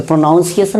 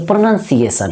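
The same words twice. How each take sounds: First: प्रोनाउंसिएशन said with a full "nouns" in the middle, pro-NOUN-see-ay-shun; wrong pronunciation. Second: प्रोनाउंसिएशन with a weak "nun" in the middle, pruh-NUN-see-ay-shun; correct pronunciation. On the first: Teacher showing students the wrong pronunciation, with प्रोनाउंसिएशन said pro-NOUN-see-ay-shun. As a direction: say प्रोनाउंसिएशन the common wrong way, "pronoun" clearly heard. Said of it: "तो प्रोनाउंसिएशन नहीं".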